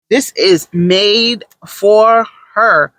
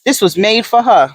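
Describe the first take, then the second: First: "This is made for her" said very slowly, leaning on "for"; drawn-out, each word weighted; relishing the point, slowed right down; slow emphatic. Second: Said in the usual way. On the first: Real, not acted.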